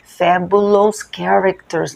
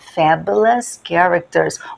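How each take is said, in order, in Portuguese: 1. O final de fabulous tem uma vogal plena. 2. O final de fabulous é um 'us' reduzido. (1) "a aluna falou que ela vai visitar também fabulous characters. Não" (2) "a pronúncia correta é us"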